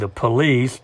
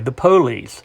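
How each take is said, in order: First: It has standard stress, without a Southern accent. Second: It has Southern word stress and a Southern accent.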